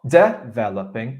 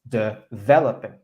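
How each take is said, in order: First: The stress is on the first syllable. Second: The stress is on the second syllable. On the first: The speaker calls it wrong. "you're stressing the d" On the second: The speaker calls it right. "Word stress is on syllable number two"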